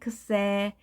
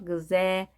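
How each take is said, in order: First: It begins with a voiceless 'ks' sound. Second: It begins with a softer voiced 'gz' sound. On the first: "크스 다음에 에가 왔기 때문에 크세" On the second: "살짝 그 약하게 해서 그제"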